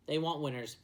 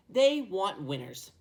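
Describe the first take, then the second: First: Said in the usual way. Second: "They want winners" drawn out slowly and louder. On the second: Shown as a demonstration. Vlogger hammering home the Lions' draft logic, slow and emphatic.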